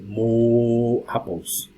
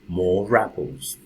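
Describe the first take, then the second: First: No R sound joins the two words. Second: An R sound links into the second word. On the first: The speaker calls it wrong. "I don't say" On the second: The speaker calls it right. "it is pronounced if the next word begins with a vowel sound"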